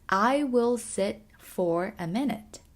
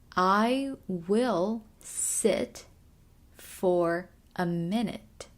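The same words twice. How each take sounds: First: The sentence is said at normal speed. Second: The sentence is said slowly and carefully.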